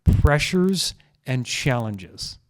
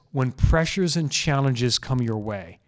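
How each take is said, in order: First: Each word spaced out, very slow; slow emphatic repeat. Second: Slow deliberate phrasing. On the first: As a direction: lean on "Pressures and challenges" slowly. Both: Shown as a demonstration. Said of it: "I say this".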